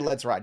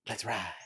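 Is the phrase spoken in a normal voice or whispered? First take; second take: normal; whispered. First: It is spoken in a normal, full voice. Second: It is whispered with almost no voice. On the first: The speaker calls it wrong. "You can't say" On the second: The speaker calls it right. "you gotta whisper it. You gotta do it like that"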